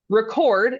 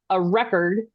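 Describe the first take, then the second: First: It is said the way the verb is said. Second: It is said the way the noun is said. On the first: The act of writing something down. "Record is I am writing it down" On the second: A written account that is kept. "a record is the noun"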